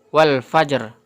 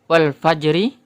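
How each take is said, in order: First: The word ends on the r, without a vowel. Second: The word ends with a short i vowel. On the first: "harokat ri-nya ini tidak dibaca menjadi wal fajr" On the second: "yang tadi sebelumnya adalah wal fajri"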